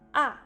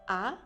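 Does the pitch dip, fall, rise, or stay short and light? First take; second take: fall; rise. First: The pitch drops quickly from high to low. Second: The pitch rises toward the end. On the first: "au quatrième temps, le son descend rapidement" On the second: "au deuxième temps, on montre le son. Il semble dire je suis étonné"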